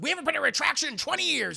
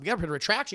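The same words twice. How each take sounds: First: High, loud, rapid-fire indignation; mock outrage. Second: Said in the usual way. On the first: Boss balks at printing a retraction, high loud outrage. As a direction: fire it back high and fast.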